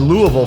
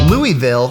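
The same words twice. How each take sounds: First: The name is said the local insider way. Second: The name is said the common outsider way. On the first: Insiders say it this way. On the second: Most people say it this way.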